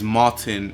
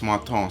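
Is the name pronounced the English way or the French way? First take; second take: English; French. First: The name is said with English pronunciation. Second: The name is said with French pronunciation. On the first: "is Martin if you're speaking English" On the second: "If you're speaking French or Flemish, then it's Martin"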